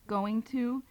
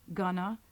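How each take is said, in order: First: Both words are said fully and separately. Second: The words blend into one reduced word. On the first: "the pronunciation of" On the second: "an informal style of American English"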